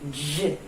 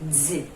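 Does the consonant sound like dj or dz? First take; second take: dj; dz. First: The d is released with a 'zh' sound. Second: The d is released with a 'z' sound. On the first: This is the sound at a word start or not between vowels. "D com J" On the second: This is the sound between vowels. "D com Z"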